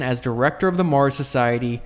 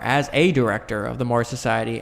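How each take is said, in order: First: Said in the usual way. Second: "a" stressed and said as a full "ay". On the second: Real, not acted. Reader correcting himself to "a director", stressing "a". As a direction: lean on the word "a" to mark the correction.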